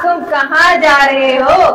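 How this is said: It sounds knowing, as if already aware.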